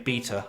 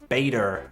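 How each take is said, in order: First: The word is said with a British pronunciation. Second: The word is said with an American pronunciation. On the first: "we say beta" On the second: "Americans say beta"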